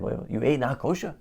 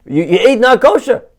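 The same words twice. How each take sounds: First: Soft, rising question of disbelief; puzzled rabbi. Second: Loud, high comic disbelief; outraged rabbi. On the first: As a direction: check quietly that you heard correctly. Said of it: "The rabbi is confused". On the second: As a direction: explode in mock horror at the confession. Rabbi shocked by the confession. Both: Acted.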